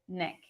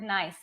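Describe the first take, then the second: First: The word is pronounced as it was misread. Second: The word has its standard English pronunciation. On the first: "I would pronounce it Nick" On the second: "when I would see the word nice"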